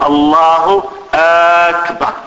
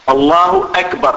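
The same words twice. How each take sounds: First: First vowel of أكبر stretched into a long "aa"; questioning hamza on akbar. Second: Said in the usual way. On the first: Shown as a demonstration. Teacher showing students the second mistake, أكبر begun with an overlong vowel. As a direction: drag out the opening of أكبر as "Allahu aakbar". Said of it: "إدخال همزة الاستفهام على أكبر".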